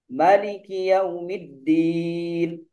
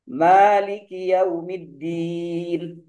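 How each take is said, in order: First: The first vowel, after the m, is kept short. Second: The first vowel, after the m, is held long. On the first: "Pendapat yang kedua" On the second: "itu pendapat yang pertama"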